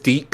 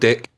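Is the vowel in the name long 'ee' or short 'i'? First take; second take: long ee; short i. First: The name is said with a long 'ee' vowel. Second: The name is said with a short 'i' vowel. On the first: It avoids sounding like a rude word. "I pronounce it as Deek so it doesn't sound as bad" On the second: It sounds like a rude word. "it's called Dick"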